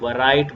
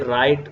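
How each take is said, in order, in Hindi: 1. r से पहले w की ध्वनि सुनाई देती है। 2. शब्द सीधे r की ध्वनि से शुरू होता है। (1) "आप नहीं कहोगे" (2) "W को नहीं पढ़ेंगे"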